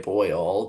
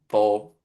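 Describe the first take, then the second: First: The vowel is a full 'oi' glide. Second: The vowel is flattened, sounding like 'bowl'. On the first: "I can say boil" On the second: "if I'm saying it fast"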